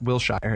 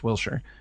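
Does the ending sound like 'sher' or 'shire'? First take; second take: shire; sher. First: The ending rhymes with 'fire', like 'shire'. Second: The ending is reduced to a short 'sher'. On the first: The speaker calls it wrong. "It's not Wilshire" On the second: The speaker calls it right. "you say sure"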